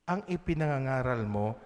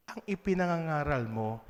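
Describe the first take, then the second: No difference in how they are said.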